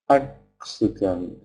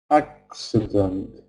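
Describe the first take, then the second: No difference in how they are said.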